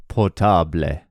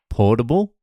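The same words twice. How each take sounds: First: "portable" as por-TA-ble, open A, final E; Spanish stress. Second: Said in the usual way. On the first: Shown as a demonstration. Comedian demoing Spanish version, por-TA-ble. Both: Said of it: "emphasize the second last syllable".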